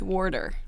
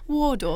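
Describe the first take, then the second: First: It is said in an American English accent. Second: It is said in a British English accent. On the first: The speaker calls it wrong. "An American accent, it's Warder" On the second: The speaker calls it right. "thinking in an English accent"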